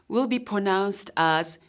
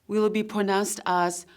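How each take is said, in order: No difference in how they are said.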